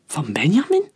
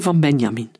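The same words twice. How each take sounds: First: "Van Benjamin?" rising sharply at the end; questioning echo. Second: Said in the usual way. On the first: A narrator's reading. Querying where the powder came from, "Van Benjamin?" as a rising question.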